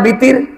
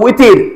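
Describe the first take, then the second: First: The word begins with a b sound. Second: The word begins with a w sound. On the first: The speaker calls it wrong. "আমরা বিতির নামাজ বলি না" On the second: The speaker calls it right. "এটা তো উইতির"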